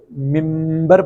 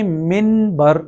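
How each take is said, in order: First: ممبر with a long humming m before the b; n turned to m. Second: منبر spelled out slowly with a clear n before b; as written. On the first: Teacher shows the Urdu reading, lingering m in ممبر. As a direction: hold the m in ممبر, then release into bar. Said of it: "Urdu میں ہم اسے ممبر پڑھتے". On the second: Teacher shows the written form, distinct n in منبر. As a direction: say منبر in two parts, min then bar. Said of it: "یہ لکھنے میں منبر لفظ ہے". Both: Shown as a demonstration.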